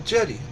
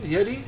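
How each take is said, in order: First: The name begins with a J sound. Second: The name begins with a Y sound. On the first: "like a J pronounced?" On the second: "Is that a Y pronunciation?"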